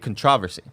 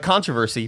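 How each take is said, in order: First: The stress is on the second syllable. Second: The stress is on the first syllable.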